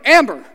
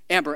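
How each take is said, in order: First: The name is called loudly and intensely. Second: The name is called fairly softly.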